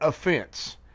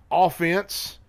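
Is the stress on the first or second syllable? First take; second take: second; first. First: The stress is on the second syllable. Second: The stress is on the first syllable. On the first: Taking insult or feeling hurt. "picking up an offense" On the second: The attacking side, as in football. "being on the offense, like a football offense"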